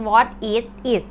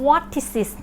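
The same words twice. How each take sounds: First: WHAT, IS, IT each said apart; separate words. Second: "What is it" run together as what-tis-sit; linked words. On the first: Teacher showing viewers the written form, separate words. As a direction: say "What is it" word by word, unlinked. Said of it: "ถ้าเขียนมันจะเป็น". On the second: Teacher showing viewers how to link words, blended. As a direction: blend "What is it", each final consonant starting the next word. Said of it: "ครูหมุนควบนะคะ ควบคำเป็น". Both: Shown as a demonstration.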